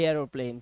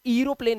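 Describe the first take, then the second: First: एरोप्लेन said with an "ay" start; correct pronunciation. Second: एरोप्लेन misread with a long "ee" start; mispronounced first vowel. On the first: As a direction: say एरोप्लेन as "ay-ro-plane". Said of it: "इसे पढ़ते हैं एरोप्लेन". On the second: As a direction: say एरोप्लेन wrongly as "ee-ro-plane". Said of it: "इसे एरोप्लेन नहीं पढ़ते". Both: Shown as a demonstration.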